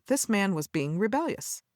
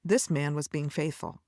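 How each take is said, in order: First: "rebellious" stressed and rising. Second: "faithful" said firmly with a falling close; "faithful" falling and final; settled, falling statement. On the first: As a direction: lean on "rebellious" with a rising lift. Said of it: "from the Pharisees' perspective". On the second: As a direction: land "faithful" down like a verdict. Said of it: "But from God's perspective". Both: Shown as a demonstration.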